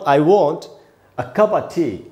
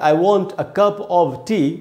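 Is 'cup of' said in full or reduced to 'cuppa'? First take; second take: reduced; full. First: 'Cup of' is run together as 'cuppa'. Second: 'Cup of' is said as two full words. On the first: "आप उसको ऐसे बोल सकते हैं" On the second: "आप बोलते"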